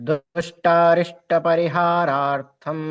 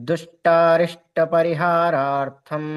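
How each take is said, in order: The two takes are said the same way.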